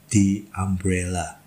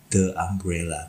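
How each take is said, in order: First: The word 'the' is said like 'thee'. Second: The word 'the' is said like 'thuh'. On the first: The speaker calls it right. "maka dia dibaca dengan the" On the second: The speaker calls it wrong. "Jadi bukan"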